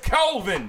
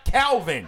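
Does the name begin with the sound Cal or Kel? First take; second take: Kel; Cal. First: The name begins with the sound Kel. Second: The name begins with the sound Cal. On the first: The speaker calls it right. "Kel. K-E-L-V-I-N" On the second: The speaker calls it wrong. "Is not Calvin"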